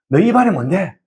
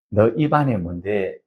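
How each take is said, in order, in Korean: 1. 이 구절은 빠르게 말하고, 소리가 서로 이어져요. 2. 이 구절은 느리고 신중한 속도로 말해요.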